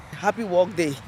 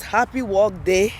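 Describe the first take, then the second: First: Said in the usual way. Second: Slow read with a rise on HAPPY; reading the shirt. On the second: Shown as a demonstration. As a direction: read the shirt slogan slowly, lifting on happy. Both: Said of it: "It says".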